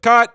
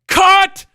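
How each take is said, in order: First: It is said in a light, ordinary tone. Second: It is said in an exasperated tone.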